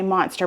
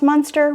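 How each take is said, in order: First: The first vowel sounds like 'o' in 'mom'. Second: The first vowel sounds like 'uh' in 'mud'. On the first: The speaker calls it wrong. "I want to say monster because my mom would correct me" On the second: The speaker calls it right. "I know this is pronounced Munster"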